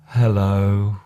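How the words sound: It is said in a low, sad tone. "or a sad hello"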